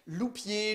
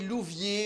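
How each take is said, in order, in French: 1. La consonne du milieu est un son p. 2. La consonne du milieu est un son v. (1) "on a mal prononcé" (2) "on a mal prononcé"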